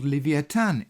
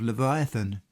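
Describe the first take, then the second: First: The name is pronounced the Hebrew way. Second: The name is pronounced the common English way. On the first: "this being how the name is pronounced in the Hebrew" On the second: "the widely accepted pronunciation of Leviathan"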